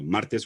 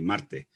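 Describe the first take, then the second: First: The final s is fully pronounced. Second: The final s is aspirated or dropped.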